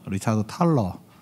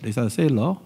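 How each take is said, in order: First: The surname begins with a 't' sound. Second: The surname begins with an 's' sound. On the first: This is how the Korean translation writes the name. The speaker calls it wrong. "책에는 탈러라고 돼 있다" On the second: This is how the name is said in English. The speaker calls it right. "영어 발음으로는 탈러라고 안 읽죠. 세일러라고"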